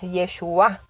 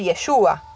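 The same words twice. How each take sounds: First: The stress falls on the final syllable. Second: The stress falls before the final syllable. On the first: It means salvation. "pero con acento en la A" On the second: It is a personal name. "Parecido a Yeshua"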